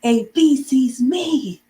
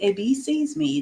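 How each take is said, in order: First: High, loud and slow, bee stressed; surprised. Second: Said evenly, no excitement; just say it plainly and calmly; calm statement. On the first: Teacher showing surprise for an exclamation mark. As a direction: gasp it out as if amazed. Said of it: "because I'm surprised that the bee". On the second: Teacher showing a calm sentence ending with a period. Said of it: "if you wanna say it calmly". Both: Shown as a demonstration.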